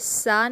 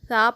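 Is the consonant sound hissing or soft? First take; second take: hissing; soft. First: The consonant is hard with a whistling hiss. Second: The consonant is soft with no whistling hiss. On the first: The speaker calls it wrong. "सा नहीं पढ़ेंगे" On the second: The speaker calls it right. "बल्कि सा पढ़ेंगे"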